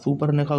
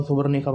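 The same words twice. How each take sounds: First: सुपर्णरेखा with a p sound in the middle; the altered सुपर्णरेखा, p before the r; altered name. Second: सुबर्णरेखा with a b sound in the middle; सुबर्णरेखा, a voiced b before the r; name with b. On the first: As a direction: say सुपर्णरेखा with p, not b. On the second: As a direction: say सुबर्णरेखा with b, not p. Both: Shown as a demonstration. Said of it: "सुपर्णरेखा को सुबर्णरेखा बना दिया".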